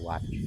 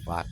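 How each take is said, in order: First: The word begins with a W sound. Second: The word begins with a V sound. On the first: This is how it is said in Thailand. "in Thailand it's a W sound" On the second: This is how it is said in Laos. "Laos, it's more of a V sound"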